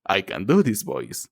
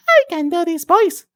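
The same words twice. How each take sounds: First: Lower, softer voice; low voice demo. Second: Squeaky-high put-on voice; very high voice demo. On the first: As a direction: drop down low and ease off the volume. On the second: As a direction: push right up to the top of your range. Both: Shown as a demonstration.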